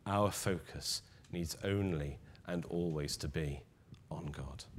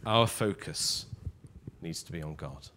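First: Dropping to a soft near-whisper; hushed repeat. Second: Said in the usual way. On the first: Shown as a demonstration. Preacher repeating to the congregation, hushed, almost whispering. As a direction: let it fade into a whisper on God. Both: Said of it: "said twice, second softer".

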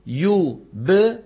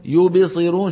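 First: Slow يبصرون with a plain light ب; drawn-out يبصرون, ب not colored by the next vowel; correct qalqala. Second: يبصرون with the ب leaning toward an i vowel, raised and louder; deliberately faulty يبصرون, ب bounced into a vowel; wrong qalqala demo. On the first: Teacher gives the correct form before the mistake, slowly. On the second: Teacher demonstrating a student's mistake, louder. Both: Shown as a demonstration. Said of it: "ما بيصير نقول يبصرون".

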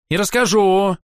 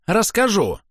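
First: Louder, higher, stamping-foot retort; petulant child. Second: Put-on high, falling childish insistence; petulant repeat. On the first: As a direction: snap back like a spoiled child. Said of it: "топнул ногой ... капризного ребёнка". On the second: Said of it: "похожим на капризного ребёнка". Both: A narrator's reading.

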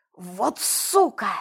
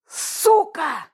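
First: Said in the usual way. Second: Sudden loud exhaled curse; loud outburst. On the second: A narrator's reading. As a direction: blurt it out loudly. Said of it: "неожиданно громко выдохнул Волк".

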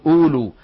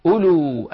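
First: "أولو" with a wrongly long first uu; خطأ مد الواو الأولى. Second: "أولو" with short first u, long last uu; الواو الأولى لا تلفظ. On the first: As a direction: stretch the first vowel of "أولو", as uuluu. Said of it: "هذه يخطئ فيها كثيرين، يقولون". («أولو» بمد الواو الأولى خطأً) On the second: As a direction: say uluu for "أولو", first waw unsounded. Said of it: "هذه الواو إخواننا تكتب ولا تلفظ". («أولو» بهمزة مضمومة قصيرة دون مد) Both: Shown as a demonstration.

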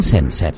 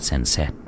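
First: Said in the usual way. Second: "sèn sẹt" dropped low and much softer, like a distant crackle; "sèn sẹt" breathed low as an echo; "sèn sẹt" whispered low and faint; eerie crackle. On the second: A narrator's reading. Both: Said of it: "có tiếng sèn sẹt".

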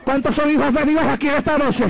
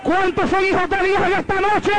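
First: Lifted call to the crowd; preacher asking the crowd; rousing call. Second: High shouted question to the crowd; preacher at the peak of his call. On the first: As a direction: call out to the congregation. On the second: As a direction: shout it to the whole church. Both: Acted. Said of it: "repeated call".

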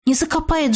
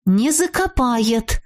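First: Said in the usual way. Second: Slow, firm repetition; resolute. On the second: A narrator's reading. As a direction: say it slowly, leaving no room for doubt. (решительно, с расстановкой) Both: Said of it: "решительно повторила я".

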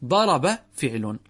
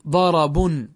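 First: "ضرب" said as "ḍaraba", verb ending with fatha, no tanween, slow; quoted as is. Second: "ضرب" said as "ḍarabun", nunated like a noun, a bit louder; with tanween. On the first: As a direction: read "ضرب" slowly as "ḍaraba", quoting the verb exactly. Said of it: "فأنا حكيتها كما هي". ("ضرب" تُنطق "ضَرَبَ" بالفتح دون تنوين، على الحكاية وببطء) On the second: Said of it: "ندخل عليه التنوين". ("ضرب" تُنطق "ضَرَبٌ" بالتنوين كأنها اسم) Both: Shown as a demonstration.

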